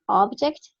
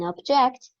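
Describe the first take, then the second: First: The stress is on the first syllable. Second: The stress is on the second syllable. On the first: It names a thing. "a clear difference of how stress, the stress of syllables can change a word" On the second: It means to protest. "That is not a noun, that is a verb"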